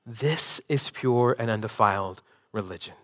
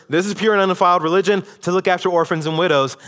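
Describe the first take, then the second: First: Softer, lower, weighty and earnest; solemn quiet reading. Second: Fast, higher and louder, skimming the verse; rattled-off quote. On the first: Pastor reading the verse to the congregation, quiet and solemn. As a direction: let the verse land with quiet gravity. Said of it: "you can't hear this verse". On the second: Mimicking a churchgoer who skims the verse, fast and careless. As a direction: rush the verse like someone who isn't listening. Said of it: "you can't hear this verse ... and think". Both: Shown as a demonstration.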